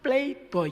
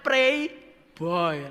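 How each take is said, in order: First: The first word is said with an l sound. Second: The first word is said with a clear r sound. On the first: It is how a speaker with a lisp would say it. "Lah lek celat playboy" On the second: A boy who likes to pray. "itu mestinya kan dibaca pray boy"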